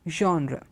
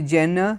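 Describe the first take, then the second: First: It is said with a French-sounding pronunciation. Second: It is said with an anglicized English pronunciation. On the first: The speaker calls it right. "the French have a slight uh, aspirational sound coming. It's genre" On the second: The speaker calls it wrong. "Some of them say Jenna"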